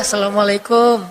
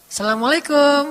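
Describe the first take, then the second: First: The greeting sounds pitiful and sad. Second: The greeting sounds eager and excited.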